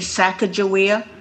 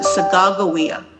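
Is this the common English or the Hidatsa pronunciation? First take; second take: common English; Hidatsa. First: The name has its common English pronunciation. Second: The name has the Hidatsa Mandan pronunciation. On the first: This is how most people usually say it. The speaker calls it wrong. "We always say Sacagawea" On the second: This is how her own people say it. The speaker calls it right. "they pronounce it Sacagawea"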